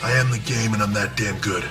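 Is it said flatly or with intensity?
flatly. It is said flatly, without conviction.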